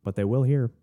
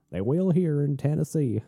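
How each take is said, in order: First: Said in the usual way. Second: Mock Southern twang, half-hearted; bad Southern accent. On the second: Practicing a Tennessee accent on his viewers, badly faked Southern. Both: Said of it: "I'm practicing my Southern accent".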